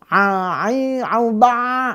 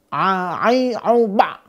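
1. Bunyi ain mengalir terus tanpa henti. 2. Bunyi ain berhenti sepenuhnya, seperti ditekan. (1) "seperti rokhwa nggak boleh... jadi nggak enak" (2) "nggak boleh syiddah... kayak ketekan gitu, salah"

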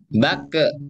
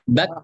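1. Huruf k dilepas dengan bunyi vokal tambahan yang memantul. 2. Huruf k berakhir dengan hembusan nafas dan tanpa bunyi vokal tambahan. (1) "bukan bakke bakke bakke" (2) "tapi bak bak bak"

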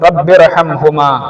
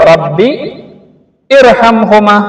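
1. രണ്ട് വാക്കുകളും ചേർന്ന് വായിക്കുന്നു, ആദ്യ സ്വരം ഒഴിവാക്കുന്നു. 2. ഒരു നിർത്തലിന് ശേഷം രണ്ടാമത്തെ വാക്ക് 'ir' എന്ന് തുടങ്ങുന്നു. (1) "ഈ അലിഫിനെ സ്കിപ്പ് ചെയ്തിട്ടാണ് നമ്മൾ ഓതേണ്ടത്" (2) "മുറിച്ചോതാണെങ്കിലോ"

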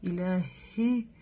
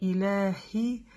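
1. Звук h очень слабый. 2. Звук h очень слабый.

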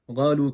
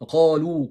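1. Kelime g benzeri bir sesle başlıyor. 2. Kelime derin bir k sesiyle başlıyor. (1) "Bunu ga diye okuyorlar" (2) "Bakın bunlar Arapça gibi"

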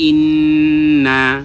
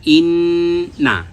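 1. শেষের স্বরধ্বনিটি টেনে লম্বা করে উচ্চারণ করা হয়। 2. নাসিক্য ধ্বনিটি ধরে রাখা হয় এবং শেষের স্বরধ্বনিটি ছোট। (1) "তখন তো না টান হবে, তখন ভুল হয়ে যাবে" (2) "ইন এই নুনের উপরে আমাদেরকে নিঃশ্বাসটা ধরে রাখতে হবে"

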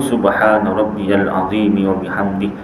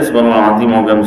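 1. Setiap suku kata dibaca penuh dan dengan hati-hati. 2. Suku katanya dibaca cepat dan saling menyambung. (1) "kalau imam tu baca ikut tajwid betul" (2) "Dia pun tak tahu apa dia baca"

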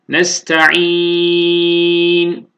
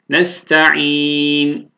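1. Sondaki n'den önceki ünlü uzun okunur. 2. Sondaki n'den önceki ünlü orta uzunlukta okunur. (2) "tevasut alalım"

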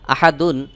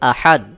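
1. শব্দটি শেষ হয়েছে একটি শেষের un ধ্বনি দিয়ে। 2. শব্দটি হঠাৎ করে d ধ্বনি দিয়ে শেষ হয়। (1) "দালের উপরে দুই পেশ তানবিন" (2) "এখানে ওয়াকফ করব, তাহলে উচ্চারণ হবে আহাদ"

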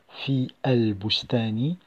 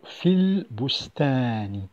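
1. Les mots fi et el sont prononcés séparément. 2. Les mots fi et el sont liés ensemble. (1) "Je n'ai pas prononcé fi el bustani" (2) "mais plutôt fil bustani"

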